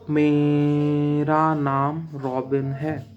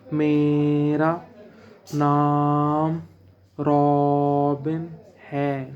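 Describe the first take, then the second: First: Only the first word's opening sound is drawn out. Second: Every word's opening sound is drawn out. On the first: The speaker calls it right. "मैंने सिर्फ माँ को खींचा" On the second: The speaker calls it wrong. "मैंने ऐसे नहीं बोला"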